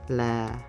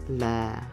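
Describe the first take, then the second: First: The pitch is low on the syllable. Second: The same.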